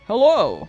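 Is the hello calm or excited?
excited. It is said in an excited way.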